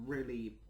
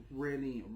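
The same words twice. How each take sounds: The two takes are said the same way.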